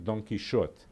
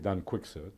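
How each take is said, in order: First: The name has an older Spanish pronunciation. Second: The name has an English pronunciation. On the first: "in the Spanish of Cervantes' time, it was really Don Quixote" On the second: "in English sometimes say Don Quixote"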